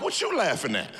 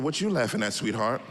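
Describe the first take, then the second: First: Curt, a bit accusing; mild mock gruff question to wife; blunt challenge. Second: Gentle mock-sweet question to wife; sweeter version. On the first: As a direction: snap the question at her. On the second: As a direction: ask it nicely, all sugar. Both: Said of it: "I said it nicer than that".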